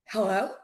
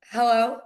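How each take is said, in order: First: Mildly puzzled hello, rising at the end; caller taken off guard. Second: Imitated phone pickup, louder; retold phone greeting. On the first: Retold or imitated. Buyer's agent surprised someone picked up, tentative retold greeting. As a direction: imitate a caller not expecting an answer. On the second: Agent answering an unknown number, firm retold greeting.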